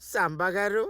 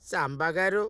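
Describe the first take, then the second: No difference in how they are said.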